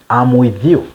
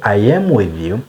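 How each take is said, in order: First: I am is contracted into one syllable. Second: I am is said as two full words. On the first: The speaker calls it right. "it is better if you say I'm with you" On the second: The speaker calls it wrong. "Instead of saying I am with you"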